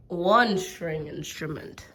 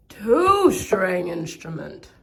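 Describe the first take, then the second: First: Said in the usual way. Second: Much louder, drawn-out count; louder and slow. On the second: Real, not acted. Showing instruments to viewers, loud and slow. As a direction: announce it slow and big.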